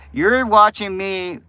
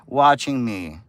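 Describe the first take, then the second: First: Watching stretched out slow and louder; stress on watching. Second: Said in the usual way. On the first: Shown as a demonstration. To Unicorn in chat, stressing watching slowly. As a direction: lean hard on watching.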